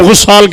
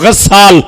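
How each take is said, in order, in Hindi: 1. पहला स्वर 'u' की आवाज़ है। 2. पहला स्वर 'a' की आवाज़ है। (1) "जिसे तुम गुस्साल कहते हो" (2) "एक लफ्ज पढ़ रहा हूं, गस्साल"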